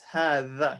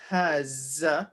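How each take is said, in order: First: The middle consonant is a voiced th sound. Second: The middle consonant is a z sound. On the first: The speaker calls it right. "You know how you say the in English? ... So it's the same sound" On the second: The speaker calls it wrong. "it's not haza with a z"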